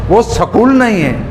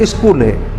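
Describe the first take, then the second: First: स्कूल said with an added vowel, सकूल; wrong form with extra vowel; wrong pronunciation. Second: स्कूल said with a leading इ, इस्कूल; the accepted स्कूल with a short i- onset; correct pronunciation. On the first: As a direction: split the cluster, सकूल. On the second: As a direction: correct form for the class. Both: Shown as a demonstration.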